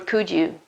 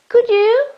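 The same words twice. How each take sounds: First: The voice falls at the end. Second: The voice rises at the end. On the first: The speaker calls it wrong. "It's not you couldn't do me a favor, could you?" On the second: The speaker calls it right. "my voice goes up"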